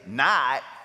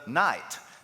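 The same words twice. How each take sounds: First: It is said in an Appalachian hillbilly accent. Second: It is said in a standard accent.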